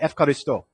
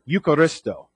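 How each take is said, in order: First: The word begins with an 'ef' sound. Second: The word begins with a vowel 'eu' sound. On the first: This is how people say it in Greece today. "they changed the EU sound to like an F sound" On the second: This is the older form of the word. "It's the word Eucharisto"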